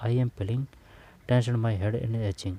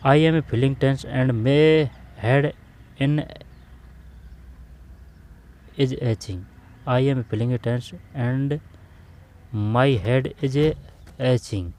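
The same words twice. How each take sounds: First: Said in the usual way. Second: Slow dictation read. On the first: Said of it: "teacher rereads the sentence quickly". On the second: Shown as a demonstration. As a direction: spell the sentence out slowly for the class. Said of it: "teacher reads sentence aloud slowly". (धीमे-धीमे, ज़ोर देकर पढ़ना)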